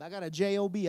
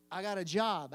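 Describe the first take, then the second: First: J O B spelled letter by letter, loud; loud, spelled-out J O B for emphasis. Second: Said in the usual way. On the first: Shown as a demonstration. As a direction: punch each letter of J O B.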